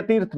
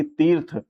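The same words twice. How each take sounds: First: तीर्थ with a short i, "tirth"; wrong short vowel. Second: तीर्थ mouth-filling, with long "tee". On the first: Teacher rejecting the misspelling for students, तीर्थ with short i. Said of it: "तीर्थ नहीं". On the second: Teacher correcting for students, तीर्थ with long ee. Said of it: "बड़े मुंह भर के बोला जाता है". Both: Shown as a demonstration.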